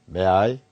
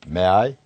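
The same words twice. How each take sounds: No difference in how they are said.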